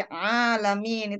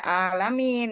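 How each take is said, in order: First: ALAMIN begun with a tight throaty 'ain, drawn out; correct 'ain pronunciation. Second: ALAMIN begun with a plain open glottal A, drawn out; wrong hamzah pronunciation. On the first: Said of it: "tapi alamin itu beda arti ya". (alamin dengan 'ain dari tenggorokan) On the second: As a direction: say ALAMIN slowly with no throaty 'ain. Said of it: "Jangan sampai alamin ya". (alamin dengan hamzah biasa, tanpa 'ain) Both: Shown as a demonstration.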